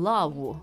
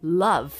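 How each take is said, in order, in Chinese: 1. 这个单词结尾是类似 w 的音。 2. 这个单词结尾是清晰的 v 音。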